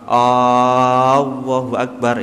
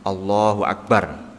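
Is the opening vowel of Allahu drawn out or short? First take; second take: drawn out; short. First: The opening vowel of Allahu is drawn out. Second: The opening vowel of Allahu is short. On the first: It becomes a question asking whether God is great. The speaker calls it wrong. "hamzahnya itu enggak boleh panjang. Berarti enggak boleh" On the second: It is a statement that God is greatest. The speaker calls it right. "ini ucapannya takbiratul ihram"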